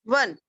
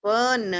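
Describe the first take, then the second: First: Said in the usual way. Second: वन split into a long व and a long न; sounded out. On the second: Shown as a demonstration. Teacher spelling वन for children, drawn out by sound. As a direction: stretch वन as two letter sounds. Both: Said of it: "फिर लिखेंगे न".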